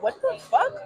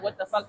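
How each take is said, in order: First: Sharply higher, stunned; shocked. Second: Said in the usual way. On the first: Retold or imitated. Retelling the slap in the car, a shocked high blurt. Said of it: "and I'm like". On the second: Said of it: "I already was like".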